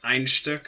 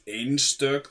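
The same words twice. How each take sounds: First: It is pronounced with German sounds. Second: It is pronounced with Icelandic sounds. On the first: The speaker calls it wrong. "not Einstök, as a lot of people who think Icelandic is German tend to pronounce it" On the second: The speaker calls it right. "That's Einstök, the pronunciation"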